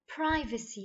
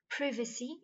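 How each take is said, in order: First: It is said in an American accent. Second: It is said in a British accent. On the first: "in American" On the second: "in British"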